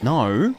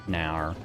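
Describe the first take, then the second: First: The word ends without an added 'er' sound. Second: The word ends with an added 'er' sound. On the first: This is how Australians really say it. The speaker calls it right. "And it's like that" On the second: This is a stereotype of how Australians talk. The speaker calls it wrong. "It's not actually nower. No one says nower"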